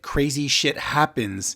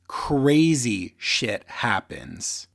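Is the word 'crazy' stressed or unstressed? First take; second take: unstressed; stressed. First: The main stress falls on a later word. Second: The word crazy carries the main stress.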